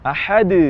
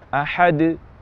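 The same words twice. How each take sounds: First: The final bounce is drawn out too long. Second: The final bounce is short and light. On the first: The speaker calls it wrong. "melebihi batas yang seharusnya" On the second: The speaker calls it right. "Jadi seharusnya ahad"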